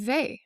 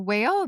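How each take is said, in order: First: The name is said the French way. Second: The name sounds like the word whale. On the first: The speaker calls it right. "she's French, and so it's actually Weil" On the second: The speaker calls it wrong. "or whale"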